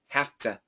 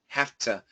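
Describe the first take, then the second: First: A voiceless F runs into a clear T. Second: A voiceless F runs into a clear T.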